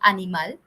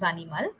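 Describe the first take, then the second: First: The word is said with English pronunciation. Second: The word is said with Spanish pronunciation.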